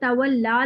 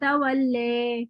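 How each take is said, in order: First: The final vowel is an open 'a' sound. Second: The final vowel is shifted to an 'e' sound. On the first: "खड़ा ज़बर है" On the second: "उसको ए करके पढ़ते हैं"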